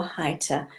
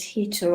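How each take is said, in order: First: Hita, first syllable like "high". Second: Hita, first syllable like "he"; Hita as HEE-ta. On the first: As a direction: say Hita with an "eye" vowel first. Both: Shown as a demonstration. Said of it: "not quite sure how you pronounce it".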